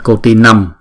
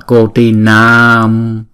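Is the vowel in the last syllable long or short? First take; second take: short; long. First: The last vowel is short, one beat. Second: The last vowel is long, two beats. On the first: The speaker calls it wrong. "đừng đọc là cô ti năm" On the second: The speaker calls it right. "mà đọc là cô ti nam"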